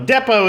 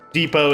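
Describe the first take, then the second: First: It is said with a British English pronunciation. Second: It is said with an American English pronunciation. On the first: "the British English" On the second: "the American dialect version of it"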